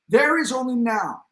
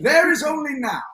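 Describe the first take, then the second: First: It is read in the speaker's ordinary accent. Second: It is read in a put-on, British-like accent.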